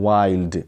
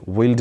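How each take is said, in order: First: वाइल्ड with an "eye" diphthong; correct long vowel. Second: विल्ड with a short i, as in "will"; wrong short vowel. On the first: (वाइल्ड میں آئی کی آواز) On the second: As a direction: say विल्ड with a short i instead of the eye sound. (विल्ड میں چھوٹی اِ کی آواز) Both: Shown as a demonstration. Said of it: "विल्ड नहीं".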